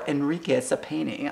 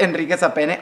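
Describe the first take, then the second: First: The name is said with an American accent. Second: The name is said with a Spanish accent.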